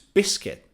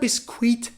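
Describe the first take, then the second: First: The u after the c is silent. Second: The u after the c is sounded. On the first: The speaker calls it right. "it's biscuit" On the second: The speaker calls it wrong. "So it's not biscuit"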